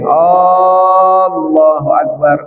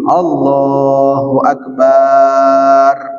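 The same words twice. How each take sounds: First: The first vowel of Allah is lengthened. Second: The vowel after b in akbar is lengthened. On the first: "Kalau dipanjangkan jadinya begini" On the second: "itu dipanjangin baknya, nggak boleh"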